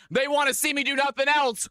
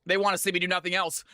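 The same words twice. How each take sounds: First: Higher, emphatic. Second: Rushed, lower mumble; fast and low. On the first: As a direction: say it out with a grin. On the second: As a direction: toss it off quickly under the breath. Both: Shown as a demonstration. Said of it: "repeats line differently".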